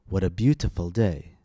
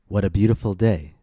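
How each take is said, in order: First: The T sounds are clear, crisp Ts. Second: The T sounds are quick D-like taps. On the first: The speaker calls it wrong. "notice how we did not say" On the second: The speaker calls it right. "the T's sound more like D's"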